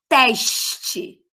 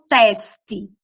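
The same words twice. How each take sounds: First: "teste" with sh before the t, TESH-tchi; hushing S. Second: "teste" with a hissing s, TES-tchi; sibilant S. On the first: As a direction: stretch "teste" slowly with a long sh. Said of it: "eu falo teste". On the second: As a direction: say "teste" slowly with s, not sh. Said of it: "eu não falo teste". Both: Shown as a demonstration.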